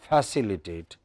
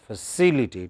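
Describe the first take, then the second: First: The first syllable is full and long. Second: The first syllable is short and weak. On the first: The speaker calls it wrong. "Is no longer facilitate" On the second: The speaker calls it right. "But the length is reduced"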